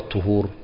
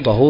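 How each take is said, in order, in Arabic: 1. الحركة الأولى هي صوت 'u' مدور. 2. الحركة الأولى هي صوت 'a' مفتوح. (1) "بالضم" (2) "بالفتح"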